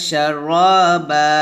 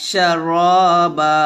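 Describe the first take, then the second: No difference in how they are said.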